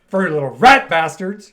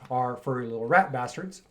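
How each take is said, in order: First: It is said with strong emotion. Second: It is said flatly, with little emotion. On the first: The speaker calls it right. "Say it with more feeling" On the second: The speaker calls it wrong. "did I say that properly? no, no, you didn't"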